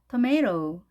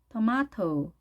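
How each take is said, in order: First: It is said with an American accent. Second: It is said with a British accent.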